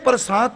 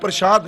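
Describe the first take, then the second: First: The middle consonant is a plain 's' sound. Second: The middle consonant is an 'sh' sound. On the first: It means divine grace. The speaker calls it right. "ਪ੍ਰਸਾਦ ਬੋਲਾਂਗੇ ਤੇ grace ਸ਼ਬਦ ਬਣੇਗਾ" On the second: It means sacred food offering. The speaker calls it wrong. "ਜੇ ਸ਼ਾਦ ਬੋਲਾਂਗੇ ਤੇ ਦੇਗ ਬਣ ਜਾਏਗੀ"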